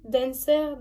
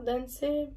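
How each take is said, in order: First: Dancer said "den-sair", r sounded at the end; English-style pronunciation. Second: Dancer said softer as "dan-sè", final r dropped; second guess at Dancer, softly, ending on an open è; alternative unsure pronunciation. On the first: Vlogger unsure of a shade name, Dancer as "den-sair". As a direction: try Dancer the English way, final r heard. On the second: Vlogger unsure of a shade name, Dancer as soft "dan-sè". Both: Real, not acted. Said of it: "je sais pas trop".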